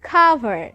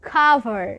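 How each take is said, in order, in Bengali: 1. শব্দটি শ্বাসযুক্ত k ধ্বনি দিয়ে শুরু হয়। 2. শব্দটি শ্বাসযুক্ত k ধ্বনি দিয়ে শুরু হয়।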